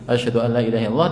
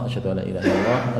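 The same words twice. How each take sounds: First: The phrase is said in a loud voice. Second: The phrase is said softly and quietly. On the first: "dengan suara yang keras" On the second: "model tarji itu dibaca lirih"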